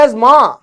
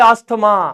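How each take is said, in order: First: The middle is a z sound, with no t. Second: The middle is an s followed by t. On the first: The speaker calls it right. "अब ये बोल रहे हैं एज मां" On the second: The speaker calls it wrong. "हमारे जैसे आदमी बोले अस्थमा"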